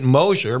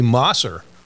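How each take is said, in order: First: The middle consonant is a 'sh' sound. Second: The middle consonant is an 's' sound. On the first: This is how the name's owner says it. The speaker calls it wrong. "you pronounce it Mosher" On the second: This matches the name's spelling. The speaker calls it right. "but it should be Mosser"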